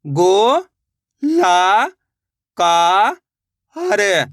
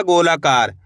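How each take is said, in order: First: गो, ला, का, हर each stretched with a pause after; syllable by syllable. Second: Said in the usual way. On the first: Shown as a demonstration. Teacher building a word for learners, गो, ला, का, हर sounded out singly. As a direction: sound out गो, ला, का, हर as separate slow beats. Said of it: "एक एक अक्षर का उच्चारण करके". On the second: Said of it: "तो मिलके बन जाएगा".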